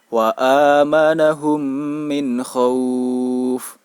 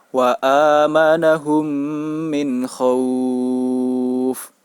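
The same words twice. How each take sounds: First: The long vowel is held for four beats. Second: The long vowel is held for six beats. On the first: "dibaca dengan panjang empat harokat" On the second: "panjang bacaan sebanyak enam harokat"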